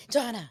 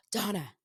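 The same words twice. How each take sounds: First: Calling the name louder, a bit higher; imitated call. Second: Said in the usual way. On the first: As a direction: call out Donna with a bit more push. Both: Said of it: "like that".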